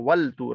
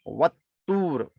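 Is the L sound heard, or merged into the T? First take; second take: heard; merged. First: The L is pronounced clearly before the T. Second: The L is merged into a doubled T. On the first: The speaker calls it wrong. "यहाँ वल तूर नहीं पढ़ा जाएगा" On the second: The speaker calls it right. "बल्कि यहाँ वत्तूर पढ़ा जाएगा"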